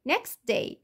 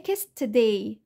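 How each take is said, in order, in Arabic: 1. يُحذف 't' بدون صوت حركة إضافي. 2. يوجد صوت حركة إضافي بعد 't'. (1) "وقعنا صوت التي" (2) "فمش هقول next day next، لا مش هجيب فاول"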